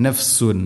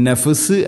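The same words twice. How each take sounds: First: നഫ്സുൻ softly, with the final n and no bounce; quiet correct നഫ്സുൻ; full tanween. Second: നഫ്സ് clipped, without the tanween; നഫ്സ് cut short; wrong reading. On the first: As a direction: model നഫ്സുൻ with a clear un ending. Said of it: "ഖലഖല ചെയ്യരുത്". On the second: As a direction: demo the mistaken നഫ്സ്. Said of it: "അല്ല". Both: Shown as a demonstration.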